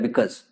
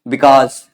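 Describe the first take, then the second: First: It is said with an English-style reduced pronunciation. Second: It is said with a Hindi-style pronunciation. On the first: "ज्ञान बघाड़ने के लिए ऐसे बोलते हैं, इसको बिकस पढ़ते हैं" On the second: "जैसे हम हिंदी भाषी बच्चे इसको कैसे पढ़ते हैं"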